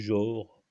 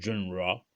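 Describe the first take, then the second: First: The word is pronounced with French sounds. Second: The word is pronounced with English sounds. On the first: "en français" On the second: "en anglais"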